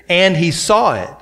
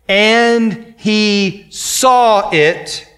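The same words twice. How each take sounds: First: Said in the usual way. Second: "and he saw it" drawn out very slowly, word by word; emphatic phrase. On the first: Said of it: "that phrase here". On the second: Shown as a demonstration. Preacher highlighting a phrase of Scripture, "and he saw it" stretched slowly. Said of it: "Underline that word".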